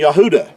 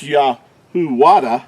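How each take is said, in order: First: "Yahudah" as ya-HOO-dah, with no W; corrected pronunciation. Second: "Yahuwada" with a W sound, ya-hoo-WA-da; wrong W pronunciation. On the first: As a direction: stress the oo in "Yahudah". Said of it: "I mean Yahudah". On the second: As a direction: put a separate "wa" into "Yahuwada". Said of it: "it's not pronounced Yahuwada". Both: Shown as a demonstration.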